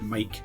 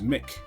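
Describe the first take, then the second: First: The word rhymes with 'bike'. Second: The word rhymes with 'kick'. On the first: This is the usual way people say it. "but you pronounce it mic" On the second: This is how the spelling would suggest saying it. "or just pronounce it as Mick"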